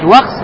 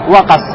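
First: The k and s are said with no vowel between. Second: A vowel is said between the k and s. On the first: "можно прочитать вакс" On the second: "а можно прочитать вакас"

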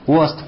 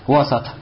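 First: There is no vowel between s and t. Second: There is an 'a' vowel between s and t. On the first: It can be replaced by the word 'among'. "«Вост» с «сукуном»" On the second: It cannot be replaced by the word 'among'. "С «фатхой»"

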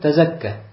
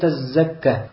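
First: The z sound is short and single. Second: The z sound is long and doubled. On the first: Why not purify yourself. The speaker calls it right. "мы читаем как" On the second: Why not give alms. The speaker calls it wrong. "с удвоением буквы зай"

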